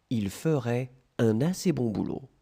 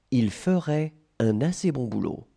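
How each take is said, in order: Both takes have the same delivery.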